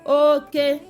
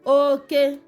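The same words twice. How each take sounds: Both takes have the same delivery.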